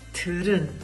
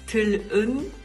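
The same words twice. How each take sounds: First: The middle consonant sounds like an R. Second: The middle consonant sounds like an L. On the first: This is how it is actually spoken. "man sagt aber 들은" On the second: This is how it is written. "Also man schreibt 들은"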